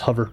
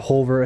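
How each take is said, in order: First: The first vowel sounds like the u in hut. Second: The first vowel sounds like the o in hot. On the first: Americans say it this way. "We make it a U, so it's hover" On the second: A non-American speaker says it this way. "He put more emphasis on the O"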